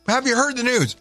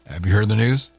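First: It is said in his natural voice. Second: It is said imitating the brick guy's voice.

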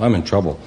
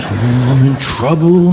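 First: It is said flatly, without emotion. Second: It is said with alarm and emotion.

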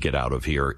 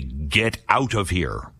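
First: It sounds like a gentle, cautionary warning. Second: It sounds like a hostile, menacing threat.

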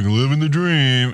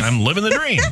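First: It sounds flat and unhappy. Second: It sounds happy and sincere.

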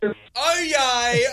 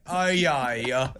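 First: It is said in an excited, lively tone. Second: It is said in a bored, flat tone.

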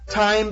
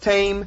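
First: The I vowel is said the standard way. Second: The I vowel is said like an A sound.

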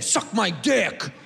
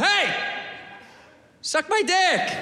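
First: It is said in a hostile, negative way. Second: It is said in a nice, friendly way.

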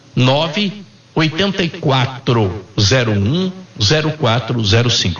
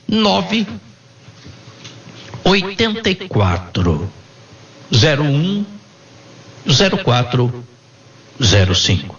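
First: The number is said at normal speed. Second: The number is said slowly.

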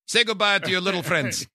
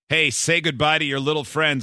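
First: It is said in a put-on movie accent. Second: It is said in a plain voice.

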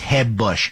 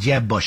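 First: The name starts with a Spanish-style H sound. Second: The name starts with an English J sound.

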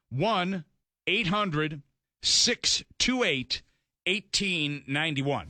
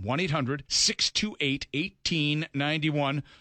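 First: The number is read slowly. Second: The number is read at normal speed.

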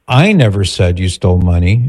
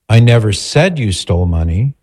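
First: The stress is on "I". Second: The stress is on "said".

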